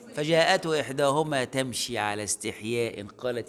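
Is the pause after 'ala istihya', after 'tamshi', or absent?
absent. The phrase runs on without a pause around 'ala istihya'. The shyness belongs to both walking and speaking.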